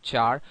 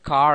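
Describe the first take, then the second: First: The word begins with a ch sound. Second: The word begins with a hard k sound. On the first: The speaker calls it wrong. "but not char" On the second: The speaker calls it right. "you can call it car at the most"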